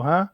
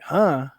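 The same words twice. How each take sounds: First: Unguarded "huh?", tossed off as a question; casual questioning huh. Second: Imitating an affronted coach's louder "huh?"; mock offended huh. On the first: Retold or imitated. Player answering coach who called his name, casual questioning. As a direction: ask "huh?" like you just didn't catch it. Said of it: "I go". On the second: Coach echoing player's reply in the meeting room, mock affronted. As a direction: throw "huh?" back as if insulted. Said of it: "And he's like".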